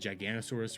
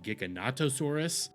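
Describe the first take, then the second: First: It is said without a 'to' before 'saurus'. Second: It is said with a 'to' before 'saurus'. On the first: The speaker calls it wrong. "I didn't know the actual pronunciation" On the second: The speaker calls it right. "the actual pronunciation"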